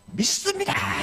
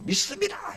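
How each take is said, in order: First: High crowd reply cried out; crowd shouting back. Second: Very high crowd cry, pushed harder; crowd yelling louder. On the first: Preacher voicing the crowd answering the walker, high cry. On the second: Preacher voicing the crowd yelling louder at the walker. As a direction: yell it like the crowd outdoing itself. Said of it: "더 소리 지르니까". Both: Retold or imitated.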